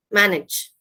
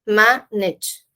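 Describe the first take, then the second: First: Said in the usual way. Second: "Manage" in two parts, first syllable stressed; split into syllables. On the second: Shown as a demonstration. Teacher pronouncing the word correctly for learners, syllable by syllable. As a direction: stretch "Manage" out, pausing between its two syllables. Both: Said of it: "let me pronounce this word correctly".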